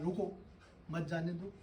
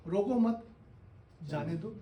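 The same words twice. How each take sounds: First: रुको alone, a clear pause, then मत जाने दो run together; pause after रुको. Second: रोको मत joined, a clear pause, then जाने दो; pause after मत. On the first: Teacher showing how a pause changes meaning, pause after रुको. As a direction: break straight after रुको, keep मत जाने दो as one softer phrase. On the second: Teacher showing the opposite meaning by pausing, pause after मत. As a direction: hold the break until after मत, then give जाने दो separately. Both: Shown as a demonstration. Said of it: "बोलने में आपने कहाँ pause लिया".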